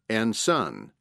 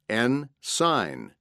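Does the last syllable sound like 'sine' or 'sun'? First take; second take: sun; sine. First: The last syllable rhymes with 'run'. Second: The last syllable rhymes with 'line'. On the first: The speaker calls it wrong. "not apostrophe S-U-N" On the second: The speaker calls it right. "The correct pronunciation is apostrophe S-I-N-E"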